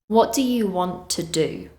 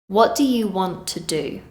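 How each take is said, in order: The two takes are said the same way.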